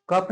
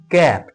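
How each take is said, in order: First: कप with a short uh vowel, said as the wrong reading; wrong vowel cup. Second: कैप with an open ae vowel like cap; correct vowel cap. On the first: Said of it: "कप नहीं पढ़िएगा". (कप को छोटे अ स्वर से, गलत उच्चारण के रूप में) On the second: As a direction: stretch the vowel in कैप to ae, not uh. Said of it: "कप नहीं पढ़िएगा, ये है कैप". (कैप को खुले ऐ स्वर से, सही उच्चारण) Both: Shown as a demonstration.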